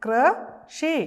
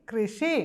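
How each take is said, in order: First: High, loud model of കൃഷി; teacher models കൃഷി for the class; drawn-out model word. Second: Said in the usual way. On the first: Shown as a demonstration. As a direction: stretch കൃഷി out for the children to repeat. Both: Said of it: "ഒരു പ്രാവശ്യം കൂടെ പറഞ്ഞേ".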